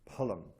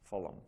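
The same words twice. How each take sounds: First: The word begins with an aspirated P sound. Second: The word begins with an F sound. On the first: The speaker calls it right. "this is the aspirated P" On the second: The speaker calls it wrong. "I think that's been brought in by the British"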